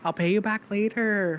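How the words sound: It is said with a reservation accent. "I switch to my res accent"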